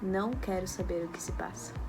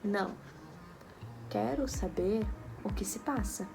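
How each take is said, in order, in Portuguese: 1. Não há pausa depois da primeira palavra. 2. Há uma pausa depois da primeira palavra. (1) "quando eu falo sem a vírgula" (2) "O não está com vírgula, onde eu estou pausadamente dizendo que não"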